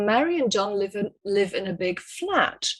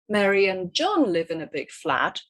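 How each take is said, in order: First: The stress falls on the word flat. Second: The stress falls on the word John. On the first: They live in a flat, not a house. "stress falls on the word flat" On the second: It is John, not another person, who lives there. "stress the word John"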